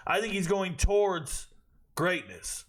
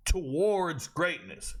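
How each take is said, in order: First: Said in the usual way. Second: Slow, drawn-out "Towards greatness"; slow emphatic echo. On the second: Real, not acted. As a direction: savour "Towards greatness" slowly. Repeats phrase, second time slower.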